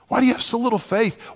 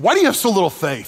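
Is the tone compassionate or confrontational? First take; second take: compassionate; confrontational. First: It sounds gentle and compassionate. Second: It sounds harsh and confrontational.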